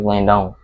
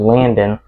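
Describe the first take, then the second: First: The last syllable sounds like 'don'. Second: The last syllable sounds like 'den'. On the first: "and then with the O in, it would be" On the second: "if you actually said with the E in, it would be"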